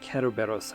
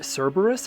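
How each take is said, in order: First: The name is said with a Japanese pronunciation. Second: The name is said with an English pronunciation. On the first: "in Japanese it's" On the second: "Some people say"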